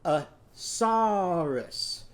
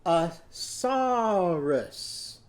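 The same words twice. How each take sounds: First: "a saurus" drawn out very slow, sss held; slowly again. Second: "A saurus" stretched out very slow; slowly, syllable by syllable. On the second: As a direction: draw out "saurus" slowly for the children. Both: Shown as a demonstration. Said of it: "go down to your knees".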